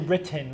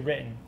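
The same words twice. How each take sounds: First: The T is fully pronounced. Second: The T is a glottal stop, Danbury accent.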